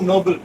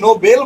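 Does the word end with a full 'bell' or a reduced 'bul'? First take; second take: bul; bell. First: The ending is reduced, rhyming with 'table'. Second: The ending is a full 'bell' sound. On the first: The speaker calls it right. "যেমন টেবিল ওইরকম নোবেল" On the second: The speaker calls it wrong. "নো বেল বলা যাবে না বেল গাছের বেল না"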